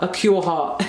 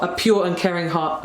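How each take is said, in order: First: "cure" said with a hard k in place of the p of pure; "a cure heart", the k sound on purpose; slip of the tongue. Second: Said in the usual way. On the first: Shown as a demonstration. Laughing at her own slip, she repeats "a cure heart" with a k. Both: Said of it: "I was about to say a cure heart".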